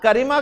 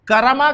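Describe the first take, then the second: First: The middle syllable has the vowel i. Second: The middle syllable has the vowel a. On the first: "ना करीमा कहता है" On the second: "ना तो करमा कहता है"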